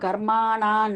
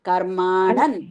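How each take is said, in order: First: The vowel before the final n is long. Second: The vowel before the final n is short. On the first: The speaker calls it wrong. "కర్మాణాన్ అంటున్నారు" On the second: The speaker calls it right. "అది హ్రస్వం కదండి, దీర్ఘం కాదు"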